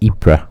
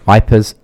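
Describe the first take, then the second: First: The name is said with French pronunciation. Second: The name sounds like the English word 'wipers'. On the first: "The French pronunciation is Ypres" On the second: "some people pronounce it wipers"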